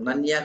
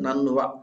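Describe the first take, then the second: First: The syllable has a y sound after n. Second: The syllable has a v sound after n. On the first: The speaker calls it wrong. "నన్య కాదు" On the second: The speaker calls it right. "నన్వ అనండి"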